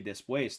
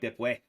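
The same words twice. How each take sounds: First: It is said in a standard Spanish accent. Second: It is said in a Puerto Rican accent. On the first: "they don't say después" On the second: "they say después or like después"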